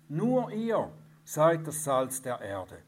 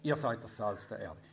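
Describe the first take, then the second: First: The word ihr is said with strong stress. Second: The word ihr is said without special stress.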